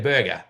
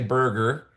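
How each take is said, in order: First: The R after the first vowel is dropped. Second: The R after the first vowel is pronounced. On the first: This is how Australians say it. "we say burger" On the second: This is how Americans say it. "we don't say burger"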